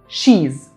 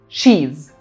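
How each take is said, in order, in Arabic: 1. اتدمجوا في مقطع واحد قصير، she's. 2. اتدمجوا في مقطع واحد قصير، she's.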